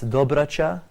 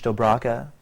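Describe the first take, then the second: First: The surname is said with Bosnian pronunciation. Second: The surname is said with English pronunciation. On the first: "in Bosnian" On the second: "in English"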